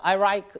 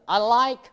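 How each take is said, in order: First: The L sound is blurred toward an R. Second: The L sound is clear, tongue behind teeth. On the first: The speaker calls it wrong. "이렇게 될 수가 있습니다" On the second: The speaker calls it right. "I like 하고 얘기해야 되는데"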